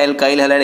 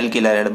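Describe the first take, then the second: First: The second syllable of alkyl sounds like kyle. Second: The second syllable of alkyl sounds like kill. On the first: This is the English pronunciation. "English में उच्चारण हो जाता है" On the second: This is the Hindi pronunciation. "Hindi में उच्चारण हो जाता है"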